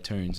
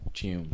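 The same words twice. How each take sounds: First: The word is said with an American accent. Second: The word is said without an American accent. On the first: "the Americans say tunes" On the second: "instead of tunes"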